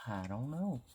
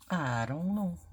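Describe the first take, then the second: First: Said in the usual way. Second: Pitched up, playful dithering; higher undecided. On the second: Real, not acted. Crafter weighing two stickers, higher playful dither. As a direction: lift it up high, sing-songy indecision.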